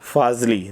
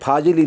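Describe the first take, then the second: First: It has nukta f and z sounds, no extra vowel. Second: It has plain f and j sounds, extra vowel. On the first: The speaker calls it right. "फा में भी नुक्ता लगा है और जा में भी नुक्ता लगा है" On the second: The speaker calls it wrong. "मैंने फाजिली नहीं बोला है"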